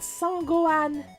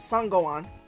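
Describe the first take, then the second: First: The name is said with a French pronunciation. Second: The name is said with a plain English pronunciation.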